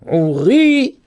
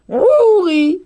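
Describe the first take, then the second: First: The stress is on the second syllable. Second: The stress is on the first syllable. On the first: "il est mis sur le ri" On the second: "là l'accent tonique il est mis sur la première syllabe"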